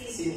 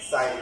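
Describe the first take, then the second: First: The word is said with a short 'i' vowel. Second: The word is said with an 'eye' vowel. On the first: The speaker calls it wrong. "শব্দটা আসলে সিন হবে না" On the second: The speaker calls it right. "সাইন হবে"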